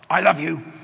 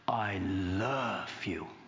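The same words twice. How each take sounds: First: The words are shouted loudly and harshly. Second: The words are said softly and warmly. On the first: It sounds like an attack. The speaker calls it wrong. "She hears she's being shouted at" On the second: It melts the listener's heart. The speaker calls it right. "He says it like this"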